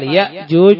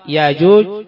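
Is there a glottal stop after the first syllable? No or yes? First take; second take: yes; no. First: A glottal stop follows the first vowel. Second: The first syllable has a long vowel, no stop. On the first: "ويقال ياجوج بالهمزة" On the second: "يقال ياجوج بالألف"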